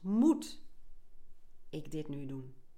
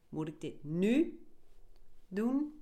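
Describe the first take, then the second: First: The stress is on the word moet. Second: The stress is on the word nu.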